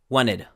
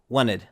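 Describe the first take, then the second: No difference in how they are said.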